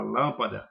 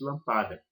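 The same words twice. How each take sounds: First: "lâmpada" stressed on the first syllable, LÂM-pa-da; proparoxytone stress. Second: "lampada" stressed on the middle syllable, lam-PA-da; shifted stress. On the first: Teacher showing the harder word, LÂM stressed in "lâmpada". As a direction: hit LÂM in "lâmpada", the rest light. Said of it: "muito mais difícil de pronunciar". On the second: Teacher showing the easier mispronunciation, PA stressed in "lampada". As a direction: move the stress of "lampada" onto PA. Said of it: "como se fosse lampada". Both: Shown as a demonstration.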